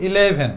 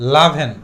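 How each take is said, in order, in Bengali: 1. শব্দটি একটি পূর্ণ স্বরবর্ণ দিয়ে শুরু হয়। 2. প্রথম স্বরটি বাদ যায়; তখন শব্দটি L দিয়ে শুরু হয়। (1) "ম্যাক্সিমাম টাইম আমরা উচ্চারণ করি ইলেভেন" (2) "একটু শর্ট করে বলবো লাভেন"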